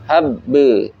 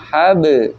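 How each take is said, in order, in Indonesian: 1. Bunyi b digandakan dan dipanjangkan. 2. Bunyi b tunggal dan pendek. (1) "itu antum udah dua huruf berarti" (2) "Harusnya habe"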